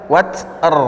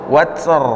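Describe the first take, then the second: Both takes have the same delivery.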